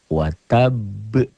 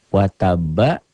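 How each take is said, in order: First: The word stops on a bouncing final consonant. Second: The word ends smoothly on a vowel sound. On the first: The reading stops on this word. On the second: The reading continues without stopping.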